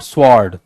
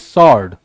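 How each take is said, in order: First: A w sound is heard after the s. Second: No w sound is heard after the s. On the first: The speaker calls it wrong. "Not स्वॉर्ड; स्व वा बहुत नहीं आना है" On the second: The speaker calls it right. "That is सॉर्ड"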